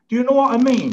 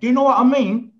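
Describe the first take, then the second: First: It is said in the speaker's usual accent. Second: It is said in a Leicester accent.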